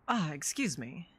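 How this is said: It is said in a natural human voice.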